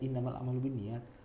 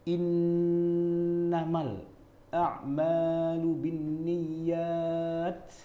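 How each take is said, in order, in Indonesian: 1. Vokal dibaca pendek dalam bacaan biasa sehari-hari. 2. Vokal dibaca panjang dalam gaya bacaan Al-Qur'an. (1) "Udahlah biasa aja" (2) "Kita nggak akan baca begini"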